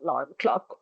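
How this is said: It is said in a reluctant, dreading tone. The speaker dreads having to wake up early. "when they have to wake up early every morning"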